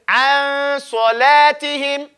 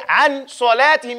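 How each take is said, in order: First: The n fades softly into the next sound. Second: The n is pronounced clearly and fully. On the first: The speaker calls it right. "you say an salatihim. You see, you fade in it" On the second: The speaker calls it wrong. "you wouldn't say"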